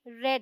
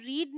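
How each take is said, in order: First: The vowel is short, like in 'red'. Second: The vowel is long, like in 'reed'. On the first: It is the past tense form. The speaker calls it right. "ये रेड है" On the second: It is the present tense form. The speaker calls it wrong. "ये रीड नहीं"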